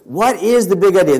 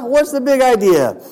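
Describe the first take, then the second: First: It is said in a plain, serious manner. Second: It is said in a playful mock-Italian manner. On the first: "But seriously" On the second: "I hope you don't mind if I say it like this"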